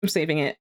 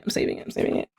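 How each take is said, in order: First: Said in the usual way. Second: Repeated softly, trailing off to herself; fading mutter. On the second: Real, not acted. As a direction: mumble it quieter each time.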